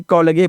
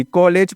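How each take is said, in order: First: कॉलेज misread as ko-la-gay; wrong pronunciation. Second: कॉलेज ending in a j sound; correct pronunciation. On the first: Teacher shows learners the letter-by-letter misreading, कॉलेज as kolagay. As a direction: end कॉलेज in hard g plus ay. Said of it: "ना कि कॉलेज पढ़ेंगे". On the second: Teacher reads the English word for learners, correct कॉलेज ending in j. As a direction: say कॉलेज in two syllables, ending -ej. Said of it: "कॉलेज पढ़ेंगे". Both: Shown as a demonstration.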